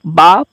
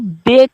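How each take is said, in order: First: The letter name ends in a long 'a' vowel. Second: The letter name ends in an 'e' vowel. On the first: This is the Arabic way of naming the letter. The speaker calls it wrong. "पा पढ़ना सही नहीं होगा, क्योंकि अरबी में ... बे को बा बोला जाता है" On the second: This is the Urdu way of naming the letter. The speaker calls it right. "Urdu में ... बा को बे कहना दुरुस्त है"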